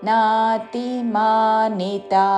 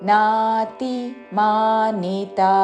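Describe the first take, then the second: The two takes are said the same way.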